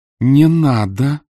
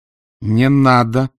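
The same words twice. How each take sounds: First: Higher, louder, desperate plea; louder pleading cry. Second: Slow plea, a little raised; pleading cry. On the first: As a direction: cry out to stop her son. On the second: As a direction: beg him to stop. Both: Acted. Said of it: "Луиза Грей сказала это".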